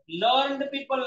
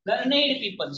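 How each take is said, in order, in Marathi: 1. 'learned' एका अक्षरात म्हणतात. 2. 'learned' दोन अक्षरांत म्हणतात. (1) "लर्नड पीपल नाही" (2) "लर्नेड पीईओ पी आहे"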